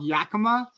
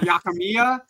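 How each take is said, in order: First: The name is said as Yakima. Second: The name is said as Yakimiya. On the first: The speaker calls it right. "it's called Yakima" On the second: The speaker calls it wrong. "not Yakimiya"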